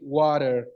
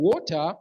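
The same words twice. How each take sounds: First: It is said in an American accent. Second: It is said in a British accent.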